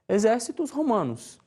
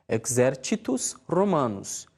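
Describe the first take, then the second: First: It uses a Brazilian Portuguese pronunciation of Latin. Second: It uses the ecclesiastical Latin pronunciation. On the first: "na pronúncia regional" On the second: "Na pronúncia eclesiástica"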